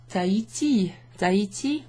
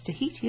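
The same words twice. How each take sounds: First: "Tahiti" in French, with no H sound; French silent H. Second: "Tahiti" in English, with the H sounded; English-style "Tahiti" with an audible H; English pronunciation. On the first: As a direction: say "Tahiti" as ta-ee-tee. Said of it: "On ne prononce pas le H". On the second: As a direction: say "Tahiti" as tuh-HEE-tee. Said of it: "Well, it's Tahiti". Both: Shown as a demonstration.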